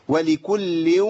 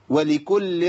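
First: ولكل with a measured nasal hold; correct ghunna. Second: ولكل with the ghunna cut short; wrong ghunna. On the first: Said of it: "أيوة كده". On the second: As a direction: clip ولكل too short. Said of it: "مش صح". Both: Shown as a demonstration.

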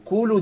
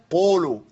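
First: قولوا said higher with a wrong vowel. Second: قولوا said with a falling tune as the right form; correct قولوا. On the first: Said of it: "دي ما تنفعش". (قولوا بنطق خاطئ) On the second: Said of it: "لكن حاجة من الاتنين". (قولوا بالنطق الصحيح) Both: Shown as a demonstration.

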